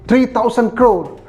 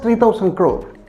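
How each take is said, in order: First: It is said as an impressive, large amount. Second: It is said as a dismissive, small amount. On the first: The hike is substantial. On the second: The hike is trivial.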